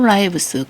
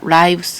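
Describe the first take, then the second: First: The vowel is short, as in 'it'. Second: The vowel is long, as in 'eye'. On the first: The speaker calls it wrong. "lives가 아니라" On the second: The speaker calls it right. "lives 이렇게 발음하고 생활이란 뜻으로"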